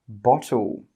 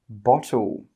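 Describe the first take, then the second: Both takes have the same delivery.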